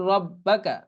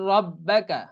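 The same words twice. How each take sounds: The two takes are said the same way.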